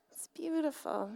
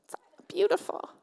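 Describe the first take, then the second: First: "beautiful" said softer, lingering and fond; soft tender echo. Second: High, bright "beautiful" gushed out; gushing admiration. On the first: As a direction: repeat it to yourself, hushed. Admiring the Bible again. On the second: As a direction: swoon over the old book. Admiring the Bible. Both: Acted.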